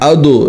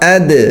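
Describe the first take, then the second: First: The d sound is heavy and thick. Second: The d sound is light and thin. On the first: The speaker calls it wrong. "मोटा नहीं करना, अदो नहीं करना" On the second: The speaker calls it right. "बल्कि बारीक"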